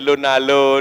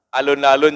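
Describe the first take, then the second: First: The word starts with the first syllable dropped. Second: The word starts with the full first syllable.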